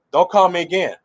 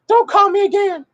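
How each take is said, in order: First: Firm retelling in a natural register; meaning it. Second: High mock-angry falsetto; mad, irritated. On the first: Retold or imitated. Preacher repeating the woman's warning, meaning it. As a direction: repeat her warning seriously, without the falsetto. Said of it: "She mean it". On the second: Woman cutting off her fiancé, high-pitched irritated mock outburst. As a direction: squeal it as the fed-up woman. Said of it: "She's mad, irritated".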